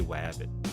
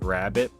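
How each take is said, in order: First: The word begins with a W sound. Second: The word begins with a clear R sound. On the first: "I say wabbit" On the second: "instead of saying like rabbit"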